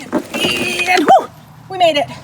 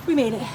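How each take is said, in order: First: High, loud make-believe whoop of relief; triumphant relief. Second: Said in the usual way. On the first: Pretend. Host clearing the pretend lava, loud triumphant relief.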